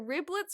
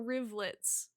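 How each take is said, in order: First: The middle consonant is a B sound. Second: The middle consonant is a V sound. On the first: "I don't know if it's a B or a V" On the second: "I don't know if it's a B or a V"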